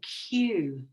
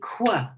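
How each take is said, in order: First: It sounds like 'kyoo', with a U sound. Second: It sounds like 'kw', as in queen. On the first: "So we have the U sound" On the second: "they're learning Q, queen, quick"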